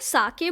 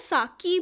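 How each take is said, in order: First: Two syllables, ending in an 'eh' vowel. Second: Two syllables, ending in an 'ee' vowel. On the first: This is the Japanese name of the drink. "इसको साके बोला जाता है" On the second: Some people say it this way. "कुछ लोग इसको साकी भी बोलते हैं"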